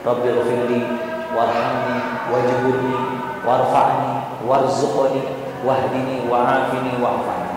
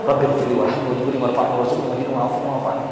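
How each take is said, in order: First: The prayer is recited slowly and evenly. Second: The prayer is recited quickly and rushed. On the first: The speaker calls it right. "secara perlahan, pelan-pelan" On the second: The speaker calls it wrong. "Jangan sampai menindih atau ngebut"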